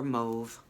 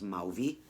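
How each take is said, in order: First: The word is said with one syllable. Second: The word is said with two syllables. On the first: The speaker calls it right. "but mauve" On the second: The speaker calls it wrong. "for years when I was little I thought the name of the word was mauvey"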